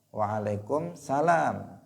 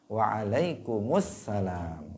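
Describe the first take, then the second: First: It is said without the 'al' before 'salam'. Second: It is said with the 'al' before 'salam'. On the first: The speaker calls it wrong. "banyak yang korupsi al, artinya tidak menyertakan al" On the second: The speaker calls it right. "Mestinya apa? ... ada alnya"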